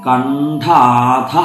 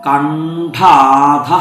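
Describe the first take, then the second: Both takes have the same delivery.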